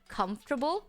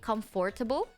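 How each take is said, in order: First: The word is said in reduced syllables. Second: Every letter of the word is pronounced. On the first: The speaker calls it right. "Now I can do it" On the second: The speaker calls it wrong. "I always say comfortable because that's how you spell it"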